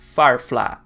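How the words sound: The final vowel is drawn out, ending in open 'ah'. The speaker is from Texas. "com uma vogal que se alonga um pouco e que termina com um som de A bem aberto"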